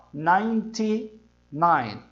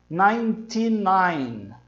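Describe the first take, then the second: First: Ninety-nine stretched even slower, nai-ti-nai; slower repeat. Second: Ninety-nine drawn out very slowly. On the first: Teacher repeats the number slowly so students catch it. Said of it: "Ó, ninety-nine". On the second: Teacher models the last number slowly for students. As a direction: stretch Ninety-nine for the learner. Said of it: "até chegar no noventa e nove". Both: Shown as a demonstration.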